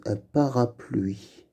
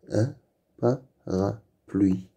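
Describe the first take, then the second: First: Said in the usual way. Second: Parapluie split slowly into pa-ra-pluie; slow, separated syllables on "Un parapluie". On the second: Shown as a demonstration. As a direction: sound out "parapluie" with gaps between syllables. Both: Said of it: "avec le son bl".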